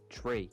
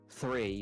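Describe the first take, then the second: First: The word starts with a hard t sound. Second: The word starts with a soft th sound. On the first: "we say tree" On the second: "we don't say like three"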